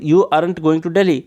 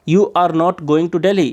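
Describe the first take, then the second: First: "You aren't going to Delhi" の aren't を一語に縮めて言う; aren't を短く一息で、ゆっくり読み上げ; contracted aren't. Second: "You are not going to Delhi" の are not を分けて一語ずつ言う; are と not をはっきり区切って、ゆっくり; full form are not. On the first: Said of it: "या फिर". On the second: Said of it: "आप separate करके भी बोल सकते हो". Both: Shown as a demonstration.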